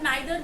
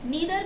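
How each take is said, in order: First: The first vowel sounds like 'eye'. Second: The first vowel sounds like 'ee'. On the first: "नाइदर भी pronounce कर सकते हैं" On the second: "नीदर भी बोल सकते हैं"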